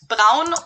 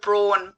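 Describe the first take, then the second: First: It is said with a German pronunciation. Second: It is said with an American pronunciation. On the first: The speaker calls it right. "pronounced this one pretty much like we do in Germany" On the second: The speaker calls it wrong. "Americans and British people too actually pronounce this brand"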